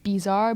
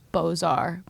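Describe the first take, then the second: First: The word begins with a 'biz' sound. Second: The word begins with a 'bo' sound. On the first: The speaker calls it wrong. "I always say like bizarre" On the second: The speaker calls it right. "but it's Beaux-Arts"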